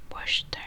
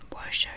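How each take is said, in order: No difference in how they are said.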